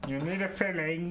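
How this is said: It is said in a put-on character voice.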